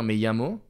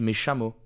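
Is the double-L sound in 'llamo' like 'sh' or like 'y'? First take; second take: y; sh. First: The double L sounds like a 'y'. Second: The double L sounds like a 'sh'. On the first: "au lieu de dire" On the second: "ils disent ... ils les disent ch au lieu de i"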